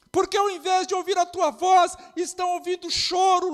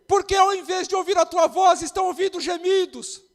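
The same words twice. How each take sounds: First: Loud, high preacher's shout; shouted repeat. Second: First call. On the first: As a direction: hammer it home louder the second time. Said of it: "repeated line shouted". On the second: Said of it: "repeated, stronger". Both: Real, not acted.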